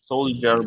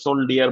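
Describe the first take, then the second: First: The middle consonant is a 'j' sound. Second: The middle consonant is a 'd' sound. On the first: The speaker calls it right. "সোলজার বলি" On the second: The speaker calls it wrong. "ওইখানে কিন্তু আমরা সোলডিয়ার বলি না"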